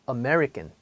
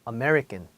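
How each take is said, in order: First: It is said American-style with one part lengthened. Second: It is said American-style with one part lengthened.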